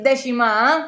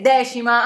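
First: The stress is on the final syllable. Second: The stress is not on the final syllable.

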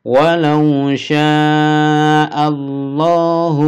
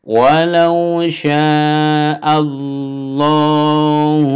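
The two takes are said the same way.

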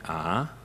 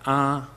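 First: The pitch goes up. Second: The pitch stays flat and steady. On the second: "There's level"

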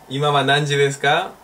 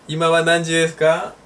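No difference in how they are said.

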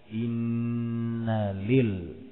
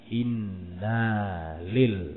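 First: The vowel after the nun is short. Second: The vowel after the nun is drawn long. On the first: The speaker calls it right. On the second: The speaker calls it wrong.

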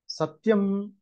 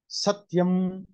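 First: The accent is on the last syllable. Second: The accent is on the first syllable. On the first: "or the last syllable" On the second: "whether it is on the first syllable"

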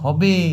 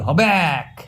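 First: The word ends in a vowel sound. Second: The word ends with an added k sound. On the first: This is the standard form of the word. "কথাটা বটে হবে" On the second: This is the regional dialect form. "আমরা বলছি হবে এক, আমি শুধু শুধু একটা ক দিলাম"

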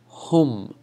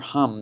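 First: It is said with Arabic pronunciation. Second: It is said like the English word. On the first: The speaker calls it right. "You want to say hum" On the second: The speaker calls it wrong. "not like the English for hum, that's not how you say it"

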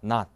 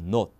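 First: The vowel is open, close to 'ah'. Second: The vowel is rounded, close to 'oh'. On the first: "이게 미국 영어예요" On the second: "영국은 not이에요. 그대로 O를 O로 발음해요"

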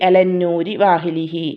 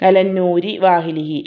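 Both takes have the same delivery.

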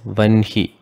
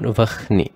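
First: The n sound comes before the h sound. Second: The h sound comes before the n sound. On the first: The speaker calls it right. "the pronunciation should be made as vanhi" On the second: The speaker calls it wrong. "and not vahni"

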